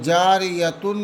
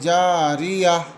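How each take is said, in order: First: The word ends with a full 'tun' ending. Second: The word stops on a soft 'h' sound. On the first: The speaker calls it wrong. "जारियतुन नहीं पढ़ेंगे" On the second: The speaker calls it right. "बल्कि जारिया"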